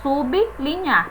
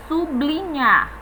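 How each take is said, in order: First: SUBLINHAR said as sub-li-nhar; correct pronunciation. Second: SUBLINHAR run together as su-bli-nhar; common mispronunciation. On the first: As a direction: separate SUB from LINHAR in "sublinhar". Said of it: "correta é sublinhar". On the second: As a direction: blend the b and l of "sublinhar" into BL. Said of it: "Nós costumamos dizer sublinhar". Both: Shown as a demonstration.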